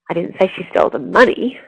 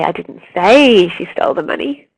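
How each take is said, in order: First: The stress falls on the word money. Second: The stress falls on the word say. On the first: She stole something else. "but actually she stole the car" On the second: It was implied rather than said. "actually means I implied it"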